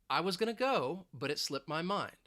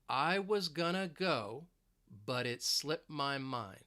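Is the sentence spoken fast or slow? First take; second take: fast; slow. First: The sentence is spoken quickly. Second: The sentence is spoken slowly. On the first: "So let's say it quickly" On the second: "So let's say it slowly"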